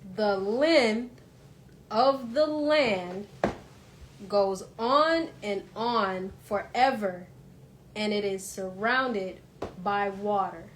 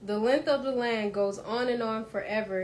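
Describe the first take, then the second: First: It is read very slowly. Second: It is read at a normal pace.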